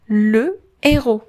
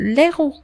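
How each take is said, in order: First: The article's vowel is kept before the word. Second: The article's vowel is dropped before the word. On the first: The speaker calls it right. "le héros le héros" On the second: The speaker calls it wrong. "ما يمكنش ندير apostrophe ما غندير l'héros c'est non"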